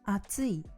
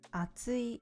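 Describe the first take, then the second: First: It has the pitch accent of 'hot'. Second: It has the pitch accent of 'thick'. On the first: The word means hot. "which means hot" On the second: The word means thick. "which means thick"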